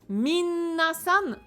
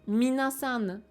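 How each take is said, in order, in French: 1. Le son n est tenu longtemps et doublé. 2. Le son n est court et simple. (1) "non. Ça n'existe pas. Vous ne pouvez pas dire mi-un-na-san"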